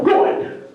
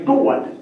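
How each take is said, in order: First: Said in the usual way. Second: Good said Maine style, GOO-wud; good as two syllables. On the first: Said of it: "That's not a made up". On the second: Shown as a demonstration. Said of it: "You gotta say good".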